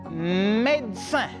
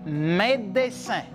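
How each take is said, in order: Both takes have the same delivery.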